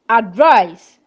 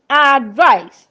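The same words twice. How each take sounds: First: "advise" with light ad, weighted VISE; stress on second syllable. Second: "advice" with a long, weighted AD; stress on first syllable. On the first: Teacher listing verbs, "advise" stressed on the second syllable. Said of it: "stress falls on the second syllable". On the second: Teacher listing nouns, "advice" stressed on the first syllable. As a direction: hit the AD of "advice": AD-vice. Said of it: "first syllable". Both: Shown as a demonstration.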